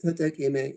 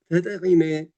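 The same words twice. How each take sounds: First: ተጠቂመ with a hard ቂ; wrong pronunciation. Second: ተጠቒመ with the guttural ቒ, stressed; correct pronunciation. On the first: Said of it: "is wrong". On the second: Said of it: "is correct". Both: Shown as a demonstration.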